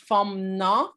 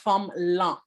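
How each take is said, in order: First: The second word begins with an N sound. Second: The second word begins with an L sound. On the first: This is how it is said in the centre. "dans le centre, on va dire forme nan" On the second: This is how it is said in the south. "dans le sud, on va dire forme lan. Donc, un L, un L à la place du N"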